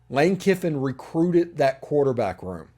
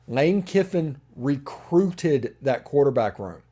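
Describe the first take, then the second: First: It is spoken at a normal, quicker pace. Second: It is spoken at a noticeably slower pace.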